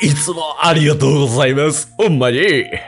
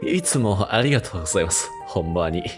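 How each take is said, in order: First: It is said in a passionate, enthusiastic tone. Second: It is said in a soft, gentle tone.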